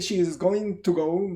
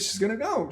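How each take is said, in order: First: "She is" is said as two full words. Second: "She is" is contracted to "she's". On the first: The speaker calls it wrong. "I don't say" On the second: The speaker calls it right. "but I say"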